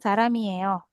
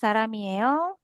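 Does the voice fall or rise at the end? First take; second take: fall; rise. First: The pitch falls at the end. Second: The pitch rises at the end. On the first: It is a statement. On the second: It is a question.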